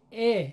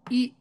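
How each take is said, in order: First: ا said as the Persian short "e" sound of استکان; Persian kasra. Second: ای said short, close to a long "i" but clipped; Arabic kasra as a quick "i". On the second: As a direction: say ای short and tight, one beat. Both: Shown as a demonstration.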